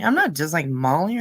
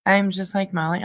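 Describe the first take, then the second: First: Not stressed with a rising tune. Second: Said in the usual way. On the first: Shown as a demonstration. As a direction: lean hard on "not".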